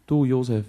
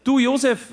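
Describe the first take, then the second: First: Said in the usual way. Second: Very high, loud caretaker voice on "Du, Josef"; groundskeeper's voice. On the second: Retold or imitated. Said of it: "Und er sagt".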